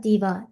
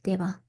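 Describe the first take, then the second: First: The first vowel sounds like 'ee'. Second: The first vowel sounds like 'ay'. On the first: "Diva won't sound like Diva" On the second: "If you said it like you were from South India, ... It will sound like Deva"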